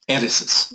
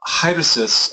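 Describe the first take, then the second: First: The word starts with a vowel, no h. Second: The word starts with an audible h sound. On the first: "which you don't do in, in modern Greek uh, pronunciation" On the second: "you hear the uh, rough breathing in there"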